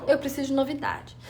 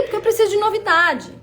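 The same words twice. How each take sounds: First: "Eu preciso de novidade" repeated quietly to herself; an inward, softer repeat of "preciso"; soft echo. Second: "preciso de novidade" pushed out with emphasis; emphatic statement. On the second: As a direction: lean hard on "preciso". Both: Shown as a demonstration.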